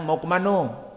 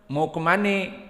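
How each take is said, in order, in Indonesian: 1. Ini diucapkan dengan logat Minang. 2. Ini diucapkan dengan logat Betawi. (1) "Orang Minang"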